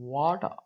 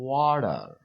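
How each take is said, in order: First: British accent, with the final r dropped. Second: American accent, with a d-like t and final r. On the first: "British वाले इसको ऐसे पढ़ेंगे" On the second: "American ऐसे बोलेंगे"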